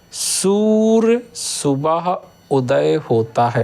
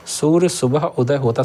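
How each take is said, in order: First: Very slow, word by word, stressing Surya; slow dictation. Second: Said in the usual way. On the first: Shown as a demonstration. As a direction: spell out Surya slowly for the class. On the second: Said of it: "शुद्ध बनेगी".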